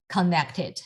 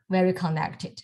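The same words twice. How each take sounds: First: Said in the usual way. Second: "very" leaned on a little, falling tune on "connected"; stress on very. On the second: Shown as a demonstration. Teacher stressing how joined the strokes are, "very" lightly leaned on. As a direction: give "very" a light push before "connected".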